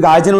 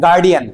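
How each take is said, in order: First: গার্জিয়ান with a j sound in the middle; mispronunciation shown. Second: গার্ডিয়ান with a hard d in the middle; corrected pronunciation. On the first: Teacher correcting his word for guardian, mispronounced গার্জিয়ান with a j. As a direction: say গার্জিয়ান with "j" where the d belongs. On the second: Teacher correcting his word for guardian, pronounced গার্ডিয়ান with a d. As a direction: say গার্ডিয়ান with "d", not "j". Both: Shown as a demonstration. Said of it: "গার্জিয়ান উচ্চারণটা হয় না".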